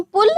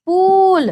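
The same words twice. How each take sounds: First: पुल with a quick short उ. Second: पूल with a long, higher, louder ऊ. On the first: Teacher contrasting पुल with पूल. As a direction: clip the vowel in पुल short. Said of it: "ऐसे बोलते हैं हम पुल". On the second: Teacher contrasting पूल with पुल. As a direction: stretch the ऊ in पूल. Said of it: "ऐसे बोलते हैं हम पुल या". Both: Shown as a demonstration.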